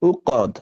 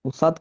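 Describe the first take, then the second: First: The middle consonant is a deep k-like sound. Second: The middle consonant is an s sound. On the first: The speaker calls it right. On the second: The speaker calls it wrong. "উসাদ কেন আসছে"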